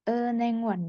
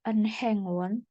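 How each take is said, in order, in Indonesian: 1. Bunyi h di tengah samar, hampir hilang. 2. Bunyi h di tengah diucapkan dengan jelas. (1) "Tapi kalau di tengah, dia dibaca samar" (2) "Jadi bukan enhengwon"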